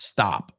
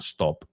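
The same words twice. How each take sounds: First: The vowel is an open 'ah' sound. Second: The vowel is a rounded 'oh' sound. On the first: The speaker calls it right. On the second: The speaker calls it wrong. "It's not stop"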